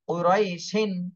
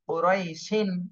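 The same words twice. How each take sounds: Both takes have the same delivery.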